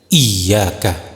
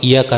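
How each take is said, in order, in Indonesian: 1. Bunyi y digandakan dan dibaca panjang. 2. Bunyi y tunggal dan dibaca pendek. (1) "dengan menekan kuat huruf tersebut" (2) "tergesa-gesa tanpa ada penekanan"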